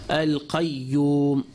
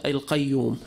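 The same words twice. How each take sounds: First: The y sound is held long and doubled. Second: The y sound is short and single. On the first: The speaker calls it right. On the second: The speaker calls it wrong.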